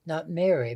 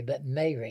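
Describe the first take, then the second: First: Mary said the usual way, merry-like short e; wrong Mary. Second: Mary said as May-ree, long ay; South Carolina Mary. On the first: Showing the host the wrong Mary, like merry. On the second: Showing the host the right Mary, long ay. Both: Shown as a demonstration.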